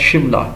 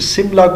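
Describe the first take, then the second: First: The word begins with an sh sound. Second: The word begins with a plain s sound. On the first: This is the local, correct form. "Correctly pronounced as शिमला" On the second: This is the form used by the British. "British pronunciation"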